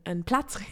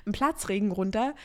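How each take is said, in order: First: Unvoiced whisper, testing the word Platzregen under her breath; whispered self-correction. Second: Said in the usual way. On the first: Real, not acted. Searching for the right word, she whispers Platzregen. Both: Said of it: "nee, wie sagt man da?".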